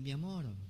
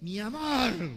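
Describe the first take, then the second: First: It is said low and tenderly. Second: It is said angrily.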